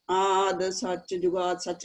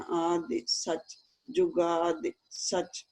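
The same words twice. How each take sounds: First: ਆਦਿ ਸੱਚ, ਜੁਗਾਦਿ ਸੱਚ with ਜੁਗਾਦਿ running straight into ਸੱਚ, no pause; the careless reading that runs the words together; wrong way, run together. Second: Slow ਆਦਿ ਸੱਚ, ਜੁਗਾਦਿ ਸੱਚ with a small pause after ਆਦਿ and ਜੁਗਾਦਿ; careful paced recitation with pauses on the ਸਿਹਾਰੀ; short pauses. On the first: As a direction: demo of the mistake, no break after ਜੁਗਾਦਿ. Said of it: "ਏਦਾਂ ਨਹੀਂ ਕਹਿਣਾ". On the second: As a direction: recite it slowly, stopping briefly after each ਦਿ. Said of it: "ਥੋੜਾ ਜਿਹਾ ਰੁਕਾਂਗੇ". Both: Shown as a demonstration.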